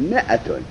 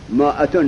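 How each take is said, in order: First: مئتون with a short i after m, the alef silent, said lower and softer; correct reading mi'atun. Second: مائتون with a long ā after m, as Arab scholars misread it; wrong reading mā'atūn. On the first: Teacher correcting the students, mi'atun with silent alef. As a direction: say مئتون as mi-a-tun, dropping the alef. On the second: Teacher voicing the scholars' mistaken reading, sounding the alef. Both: Shown as a demonstration.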